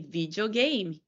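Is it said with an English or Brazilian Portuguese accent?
Brazilian Portuguese. It is said with a Brazilian Portuguese accent.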